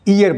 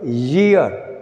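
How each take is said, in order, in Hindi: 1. यह शब्द सीधे स्वर की ध्वनि से शुरू होता है। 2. यह शब्द "y" की ध्वनि से शुरू होता है। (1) "हम लोग इसको ईयर बोल रहे हैं, ये गलत है।" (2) "जो वाई ई ए आर है इट इज ईयर"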